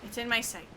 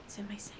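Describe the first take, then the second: First: Said in the usual way. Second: Whispered under her breath while aiming. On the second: Real, not acted. Streamer whispering as she lines up the shot. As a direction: breathe it out, voiceless and hushed.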